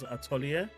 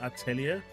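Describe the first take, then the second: First: The vowel after the t sounds like o. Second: The vowel after the t sounds like e. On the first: This is how the game character pronounced it. "he pronounced it as atelier" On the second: This is not how the game character pronounced it. "not atelier"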